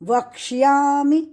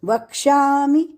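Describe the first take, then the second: First: A y sound is heard after ksh. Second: There is no y sound after ksh. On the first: The speaker calls it right. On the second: The speaker calls it wrong.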